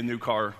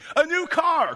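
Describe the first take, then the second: First: It is said in a plain, normal tone. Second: It is said like an excited game-show announcer.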